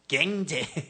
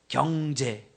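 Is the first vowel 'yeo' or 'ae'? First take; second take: ae; yeo. First: The first vowel is a flattened 'ae' sound. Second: The first vowel is a standard 'yeo' sound.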